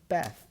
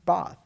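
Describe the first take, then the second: First: The vowel is short and front, as in cat. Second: The vowel is long and open, as in father. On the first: "vowel cat" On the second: "pronounce path with the first vowel of father"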